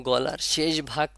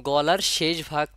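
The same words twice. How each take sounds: The two takes are said the same way.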